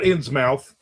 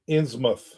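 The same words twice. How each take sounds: First: The ending is a full 'mouth' sound. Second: The ending is a reduced 'muth' sound. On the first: The speaker calls it wrong. "not Innsmouth" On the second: The speaker calls it right. "You said it right with a muth"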